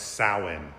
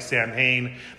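First: It is said with its Gaelic pronunciation. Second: It is read the way the spelling suggests. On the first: "but in Gaelic it's pronounced Samhain" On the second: "It looks like Samhain"

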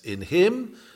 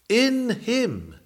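First: The stress falls on the word "him". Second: The stress falls on the word "in". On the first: It is the person himself. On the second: It is inside, not outward.

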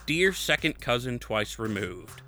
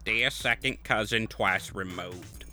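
First: It is read in the speaker's normal voice. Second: It is read in a put-on character voice.

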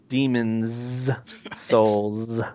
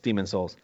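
First: The two S sounds are pronounced separately. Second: The two S sounds merge into one. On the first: The speaker calls it right. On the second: The speaker calls it wrong.

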